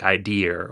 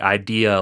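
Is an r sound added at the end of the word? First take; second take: Yes; No. First: It ends with an added r sound. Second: It ends on the vowel with no r sound.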